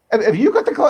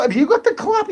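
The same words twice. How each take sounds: First: Laughing through a mock question; chuckling tease. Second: Much higher squeaky mock voice, a rising question; silly high voice. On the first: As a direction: laugh as you ask it. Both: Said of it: "We'll stop talking like this".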